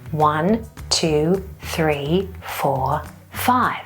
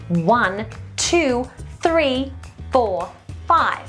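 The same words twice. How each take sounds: First: The voice is airy with too much breath. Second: The voice is clear and firmly supported. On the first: The speaker calls it wrong. "if you're doing it wrong, it will look like this" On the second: The speaker calls it right. "count clearly to five"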